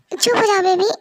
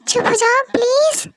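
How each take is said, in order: First: Said in the usual way. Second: Put-on whispered, pitched up, begging the baby to hush; breathy pleading hush. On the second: Soothing crying baby, begging.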